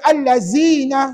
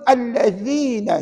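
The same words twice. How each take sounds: First: The middle consonant is not a soft 'th'. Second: The middle consonant is a soft 'th' sound. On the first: The speaker calls it wrong. "tak boleh baca allazina. Salah" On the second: The speaker calls it right. "Dia kena sebut allazina"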